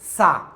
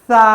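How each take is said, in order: First: The s sound is a plain, hard hiss. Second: The s sound is soft and gentle. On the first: The speaker calls it wrong. "আমরা অনেক সময় বলে থাকি কি সা। আসলে সা হবে না" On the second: The speaker calls it right. "কি হবে সা"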